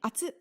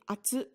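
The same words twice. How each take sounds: First: The final vowel is suddenly clipped short. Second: The final vowel ends normally, without abrupt cutoff. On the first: It is a warning that something is hot. "that last vowel is really suddenly clipped short" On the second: It is a plain statement that something is hot. "instead of just saying atsu"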